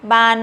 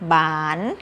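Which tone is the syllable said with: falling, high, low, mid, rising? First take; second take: high; rising. First: The syllable is said on a high tone. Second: The syllable is said on a rising tone. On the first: "ไม้ตรี" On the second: "ไม้จัตวา"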